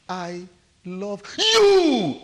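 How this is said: The stress falls on the word you. "The emphasis is on you"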